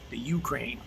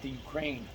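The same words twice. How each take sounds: First: Ukraine is said the Southern US way. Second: Ukraine is said the standard way. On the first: "as we say down south" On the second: "Not the Ukraine"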